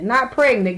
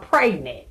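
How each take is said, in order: First: Said in the usual way. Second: Pregnant with a long ay, PRAYG-nit; southern pronunciation. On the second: Shown as a demonstration. To the chat, how they say it down south, PRAYG-nit. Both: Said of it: "like they said down south".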